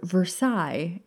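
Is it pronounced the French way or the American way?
French. It is said with French pronunciation.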